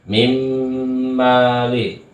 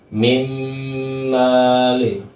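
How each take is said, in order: No difference in how they are said.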